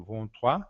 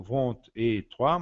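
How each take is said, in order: First: Vingt-trois without the et, French uvular r; vingt-trois said as one word; vingt-trois run straight together; correct French. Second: Vingt et trois with the et sounded; wrong form. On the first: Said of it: "mas eu digo". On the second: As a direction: vingt et trois with an added et, as the mistake. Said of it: "Eu não digo". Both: Shown as a demonstration.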